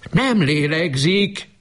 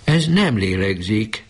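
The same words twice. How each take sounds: First: Much higher, slow, desperate cry of "Nem lélegzik"; anguished cry. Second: Slow, higher, trembling with shock; whisper-near disbelief, voice quivering. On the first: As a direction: cry it out, ignoring everything. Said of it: "kiáltott most hangosan". (kétségbeesett, hangos kiáltás) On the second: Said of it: "reszkető hanggal a férjének". (reszkető, csodálkozó hangon) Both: A narrator's reading.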